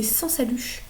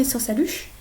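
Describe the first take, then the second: First: "sans saluche" whispered slowly, like a secret tip; whispered mnemonic. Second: Said in the usual way. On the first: Shown as a demonstration. Tutor sharing the memory trick with students, slow whisper.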